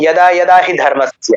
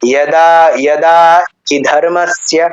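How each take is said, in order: First: The long vowel is said short and quickly. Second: The long vowel is held noticeably longer. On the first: The speaker calls it wrong. "তাড়াতাড়ি বললে মানে যদি আমি দীর্ঘটাকে দীর্ঘ উচ্চারণ না করতাম" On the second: The speaker calls it right. "দাটা একটু দীর্ঘ হলো উচ্চারণ কারণ আ আছে"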